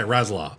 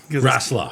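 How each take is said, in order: First: The middle consonant is a buzzing Z sound. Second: The middle consonant is a hissing S sound. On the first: "I say Razzler" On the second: "we say Wrestler"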